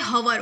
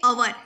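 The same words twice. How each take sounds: First: हवर with a sounded h, like "hour" read as "hower"; wrong reading with h. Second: अवर with no h, starting on the vowel; correct reading, silent h. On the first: Teacher shows students the wrong reading हवर with h. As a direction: say हवर, pronouncing the h at the start. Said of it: "इसको हवर नहीं पढ़ते". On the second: Teacher gives students the right reading अवर, h silent. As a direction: say अवर, dropping the h completely. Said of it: "इसको क्या पढ़ते हैं अवर". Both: Shown as a demonstration.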